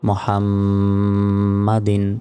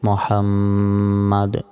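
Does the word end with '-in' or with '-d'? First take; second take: -in; -d. First: The word ends with an added -in sound. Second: The word ends on the final d sound. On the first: The reciter continues without stopping. "না থামলে" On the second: The reciter stops after this word. "থামলে"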